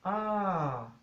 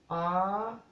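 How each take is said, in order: First: It is said on a falling tone. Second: It is said on a high tone. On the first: "tono decreciente" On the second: "tono alto"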